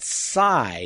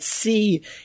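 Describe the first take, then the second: First: The vowel is like 'sigh', anglicized. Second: The vowel is like 'see', French-style. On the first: This is the traditional English form. "the traditional anglicized pronunciation" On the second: This is a form borrowed back from French. "a repatriated French pronunciation"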